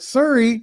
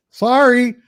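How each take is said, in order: First: Put-on "Surrey" in a Canadian accent, pitched up; the Canadian "sorry" said as "Surrey"; Canadian-accented "Surrey", voice raised. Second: Drawn-out Canadian "sorry", pitched up; Canadian-accented "sorry" with a raised pitch. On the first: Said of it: "actually, I went". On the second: Retold or imitated. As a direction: say "sorry" like a Canadian, slow and high. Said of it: "well, you kinda have an accent".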